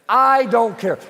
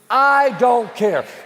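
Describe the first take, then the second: First: It is said plainly, without extra force. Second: It is said forcefully, with strong conviction.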